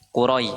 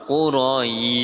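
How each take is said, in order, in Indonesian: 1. Vokal sebelum akhir dibaca pendek dan cepat. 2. Vokal sebelum akhir dibaca panjang. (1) "cepat jadi ya, bukan jangan lama-lama" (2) "saya itu kelamaan"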